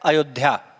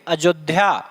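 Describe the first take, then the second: First: The word begins with a y sound. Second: The word begins with a j sound. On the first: This is the pure original form. "अयोध्या शुद्ध शब्द क्या होता है?" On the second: This is the everyday spoken form. "अयोध्या का हम लोग कहते क्या है?"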